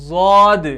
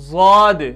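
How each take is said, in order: No difference in how they are said.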